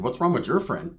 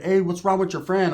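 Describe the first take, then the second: First: "your" hit hard, falling at the end; stress on YOUR. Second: Said in the usual way. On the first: Retold or imitated. Answering the brunette with her own question, "your" stressed. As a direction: throw it back, leaning on "your".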